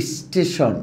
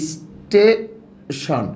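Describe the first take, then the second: First: Said in the usual way. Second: স্টেশন drawn out slowly with an i sound before the st; vowel i before স্টেশন. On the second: Shown as a demonstration. Teacher shows the hidden i vowel in স্টেশন. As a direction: stretch স্টেশন into ইস্টেশন. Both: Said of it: "এরকম উচ্চারণ করে একটা রস্যি আসছে না".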